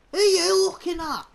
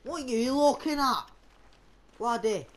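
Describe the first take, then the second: First: High, loud challenge; confrontational shout. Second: Said in the usual way. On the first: Pretend. Player challenging a stranger in the game, shouting. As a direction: raise the voice sharply to confront.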